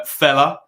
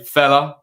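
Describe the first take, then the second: First: Said in the usual way. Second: A light hint of the stern police chief, a bit louder; Ted Hastings. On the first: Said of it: "as, um, Chief Superintendent Hastings ... would say". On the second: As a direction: deliver fella like a gruff senior officer, only lightly. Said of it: "Chief Superintendent Hastings, or whatever his job title is, would say".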